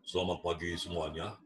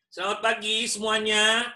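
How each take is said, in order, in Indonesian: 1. Nada suaranya rendah dan dalam. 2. Nada suaranya tinggi dan cerah.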